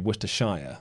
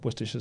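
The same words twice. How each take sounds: First: It is said with an American pronunciation. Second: It is said with a British pronunciation. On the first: "Americans would say Worcestershire" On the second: "How do Brits pronounce Worcestershire sauce?"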